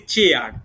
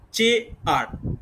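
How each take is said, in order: First: Said in the usual way. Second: chair drawn out slowly as two beats, চে, আর; slow chair with a clear gap between its two syllables; split into syllables. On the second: Shown as a demonstration. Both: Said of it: "দুটো syllable".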